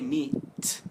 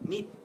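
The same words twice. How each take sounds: First: The final t is released strongly. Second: The final t is cut off, unreleased. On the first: The speaker calls it wrong. "You don't say meat, right?" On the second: The speaker calls it right. "It's just like meat. Your tongue comes up, but you stop"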